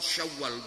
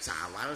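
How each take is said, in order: First: It is said with Arabic sounds, with 'sy'. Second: It is said with Javanese sounds, with plain 's'. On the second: "Angel ya penak"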